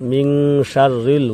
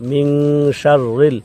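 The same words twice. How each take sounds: The two takes are said the same way.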